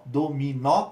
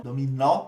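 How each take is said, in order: First: "dominó" slowly, syllable by syllable, landing on open "nó"; open stressed final vowel. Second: Said in the usual way. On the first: Shown as a demonstration. Teacher showing students where the accent goes, "dominó" slow and split. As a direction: draw out "dominó" to show the open "ó". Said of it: "timbre aberto". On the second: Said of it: "a gente acentua com acento agudo".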